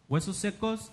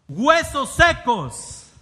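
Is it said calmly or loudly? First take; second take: calmly; loudly. First: It is said in a calm, plain voice. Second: It is said loudly, as an exclamation.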